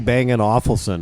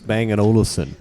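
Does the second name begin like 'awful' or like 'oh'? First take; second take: awful; oh. First: The second name starts like the word 'awful'. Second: The second name starts with an 'oh' sound. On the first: The speaker calls it wrong. "Don't say Bang and Awfulson" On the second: The speaker calls it right. "It's Bang and Olufsen"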